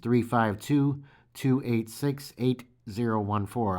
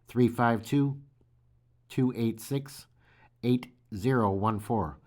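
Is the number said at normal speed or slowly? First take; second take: normal speed; slowly. First: The number is said at normal speed. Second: The number is said slowly.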